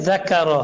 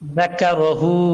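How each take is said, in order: First: The word ends without its final vowel. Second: The word ends with a short u vowel. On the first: The reader stops at this word. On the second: The reading continues without stopping.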